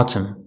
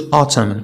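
First: "autumn" ending on M; silent N. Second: "autumn" as autum-n, final N audible; N sounded. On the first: Teacher models the right word, silent N in "autumn". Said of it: "كنقولوا autumn". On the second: Teacher shows what not to say, N sounded in "autumn". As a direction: say "autumn" pronouncing the last N. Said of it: "ما غنقولوش autumn". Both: Shown as a demonstration.

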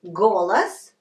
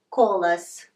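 First: Golas opened on a hard, voiced G; teacher's careful model of Golas with voiced G. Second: Kolas opened on a voiceless K; teacher's careful model of Kolas with voiceless K. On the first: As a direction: say "Golas" with a clear G at the start. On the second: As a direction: say "Kolas" with a crisp K instead of G. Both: Shown as a demonstration.

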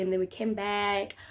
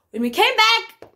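First: Said in the usual way. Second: "came back" drawn out, high and loud; emphatic. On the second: Real, not acted. Storyteller to viewers after six hours at clinic, emphatic "came back". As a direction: hit "came back" slowly at high volume.

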